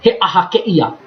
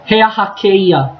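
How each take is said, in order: First: The vowels are kept apart, not blended. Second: The vowels are blended smoothly together. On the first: The speaker calls it wrong. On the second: The speaker calls it right.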